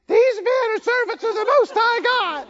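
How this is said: It is said in a grating voice.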